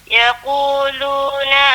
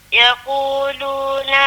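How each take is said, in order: No difference in how they are said.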